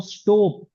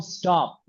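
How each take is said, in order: First: स्टॉप with lips rounded on the O. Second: स्टॉप with the O said without rounding the lips; स्टॉप, O with unrounded lips. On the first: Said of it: "एक तो मैं बोलता हूँ स्टॉप". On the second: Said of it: "ओ बोला है लेकिन होठ नहीं घुमाया". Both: Shown as a demonstration.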